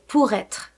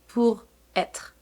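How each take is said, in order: First: The r sound links into the next vowel. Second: The two words are said with a break. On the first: The speaker calls it right. "We say" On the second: The speaker calls it wrong.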